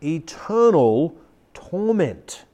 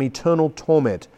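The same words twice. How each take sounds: First: Grave, drawn-out preaching delivery; said slowly. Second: Said in the usual way. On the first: Shown as a demonstration. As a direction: let each word hang, slowly. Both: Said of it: "I say it slowly".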